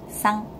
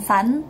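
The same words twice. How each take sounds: First: Sang ending in a back ng; sang, tongue held back. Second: San with a front n and the tongue forward; san, tongue pressed forward; wrong reading. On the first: Teacher repeating the correct sang ending. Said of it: "tapi sang". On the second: Teacher repeating the wrong n ending. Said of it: "bukan san". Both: Shown as a demonstration.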